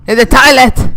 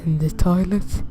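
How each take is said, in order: First: Loud, sharp shout of toilet; shouted repeat. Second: Said in the usual way. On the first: Real, not acted. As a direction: yell it the second time. Repeats line, second time shouted.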